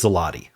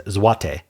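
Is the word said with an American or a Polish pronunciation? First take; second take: American; Polish. First: The word is said with an American pronunciation. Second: The word is said with a Polish pronunciation. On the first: "the American pronunciation of this is zloty" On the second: "But the Polish pronunciation, the way they pronounce their own currency"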